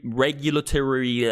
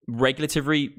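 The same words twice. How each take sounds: First: Regulatory said slowly, each syllable placed; careful retry. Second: Regulatory slurred and garbled; fumbled word. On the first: Streamer fixing his stumble, saying regulatory slowly. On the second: Streamer ranting about policy stumbles on regulatory. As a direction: trip over regulatory, syllables mashed. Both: Real, not acted. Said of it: "I can't even speak tonight".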